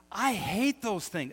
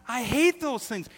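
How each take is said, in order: First: Slow, higher exasperated complaint. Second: High, loud exasperated outburst; louder exasperation. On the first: Pastor griping about hanging curtains, exasperated. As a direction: let the frustration drag out. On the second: Pastor ranting about curtain doodads, loud and exasperated. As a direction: blow up over the curtain hardware. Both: Real, not acted. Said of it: "hates curtain doodads".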